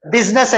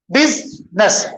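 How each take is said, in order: First: Said in the usual way. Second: business broken as "बिज … नेस"; split into syllables. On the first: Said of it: "पढ़ने में कितने हैं". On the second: Shown as a demonstration. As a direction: pause between बिज and नेस. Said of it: "दो है". (Business को दो हिस्सों में तोड़कर)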